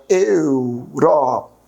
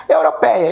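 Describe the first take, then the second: First: "Europeia" very slow and lower, each syllable drawn out; split into syllables. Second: Said in the usual way. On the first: Shown as a demonstration. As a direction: pull "Europeia" apart syllable by syllable, very slowly. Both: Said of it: "Como é que eu separo a palavra europeia?".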